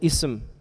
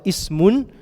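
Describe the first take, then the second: First: The word ends on a consonant, no ending. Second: The word ends with an added un ending. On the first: "sometimes I will just say ism" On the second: "sometimes I will say the last part"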